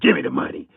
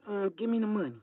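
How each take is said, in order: First: It is said in a hard, scary voice. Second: It is said in a soft, timid voice.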